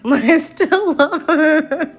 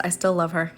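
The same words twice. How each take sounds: First: High, slow, laughing repeat; laughing through it. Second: Said in the usual way. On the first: Real, not acted. Admitting love for her old character while laughing helplessly. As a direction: say it again while cracking up with embarrassment.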